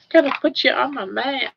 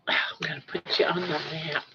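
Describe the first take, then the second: First: Said in the usual way. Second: Sighing, fast whisper to a pet; whispered promise to a pet. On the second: Real, not acted. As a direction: breathe it out on a sigh. Whispers to pet, then repeats.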